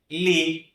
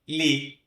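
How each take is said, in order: The two takes are said the same way.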